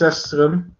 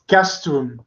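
First: The word begins with an S sound. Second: The word begins with a K sound. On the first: The speaker calls it wrong. "not Sestrum" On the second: The speaker calls it right. "I should pronounce it in the Latin way"

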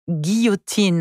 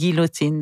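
First: The double L is said as a Y sound. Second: The double L is said as an L sound. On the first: The speaker calls it right. "today we are talking about the word guillotine" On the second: The speaker calls it wrong. "not guillotine, the way you said that"

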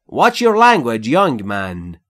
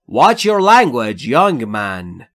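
The two takes are said the same way.

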